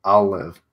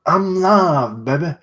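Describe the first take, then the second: First: Said in the usual way. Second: Put-on high, loud "I'm live, baby" like a hype streamer; goofy hype voice.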